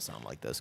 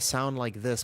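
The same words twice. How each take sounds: First: The voice is relaxed, flat and creaky. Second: The voice is full and supported from the diaphragm. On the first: "most of the time I just kind of sound like this because I'm chilling" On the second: "when I use my diaphragm"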